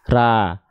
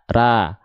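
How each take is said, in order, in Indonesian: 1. Bunyi vokalnya seperti a terbuka. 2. Bunyi vokalnya seperti a terbuka.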